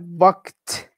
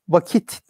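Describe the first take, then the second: First: It is one syllable, with no vowel before t. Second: It is two syllables, with a vowel before t. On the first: This is the original Arabic form of the word. "Vakit yine Arapça bir kelime" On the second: This is the easier everyday Turkish form. "Türkçe telaffuzumuzda bizim dilimize daha e, kolay ve yatkın olan şekliyle vakit diye telaffuz ediyoruz"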